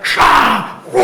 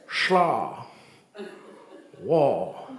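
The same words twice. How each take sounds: First: It is said at normal speed. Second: It is said in slow motion.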